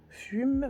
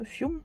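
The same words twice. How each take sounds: First: "Fume" tried out at a much higher pitch; trying a pronunciation. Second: "Fiume" with a y-glide after the F, pitched high; retry the word as "Fiume", high-pitched; second pronunciation try. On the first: Vlogger sounding out an English label word, "Fume" without a y-glide. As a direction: try "Fume" with a plain u, pitched up. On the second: Vlogger correcting her reading of a label, "Fiume" with a y-glide. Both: Real, not acted.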